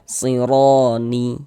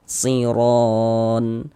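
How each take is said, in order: First: The word ends with an added i vowel. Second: The word ends on a silent n sound. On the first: The speaker calls it wrong. "Jangan dibaca sironi" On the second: The speaker calls it right. "kalau berwakaf di huruf nun kita baca siron"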